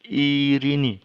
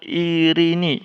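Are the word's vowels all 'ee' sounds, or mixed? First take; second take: all ee; all ee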